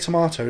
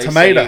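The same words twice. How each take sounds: First: It is said in a British accent. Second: It is said in an American accent. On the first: "We say tomato" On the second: "they say"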